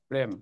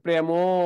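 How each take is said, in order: First: The word ends on the consonant m. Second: The word ends with an added o vowel. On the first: The speaker calls it right. "মানে ও নাই" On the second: The speaker calls it wrong. "এভাবে কেউ বলে?"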